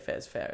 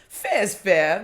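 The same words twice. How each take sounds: First: It is said with a relaxed, accepting intonation. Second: It is said with an indignant, protesting intonation. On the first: The speaker agrees the outcome is fair. "oh yeah, no, that's that's fair" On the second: The speaker feels owed something they are not getting. "that's suggesting that you're entitled to something that you're not getting"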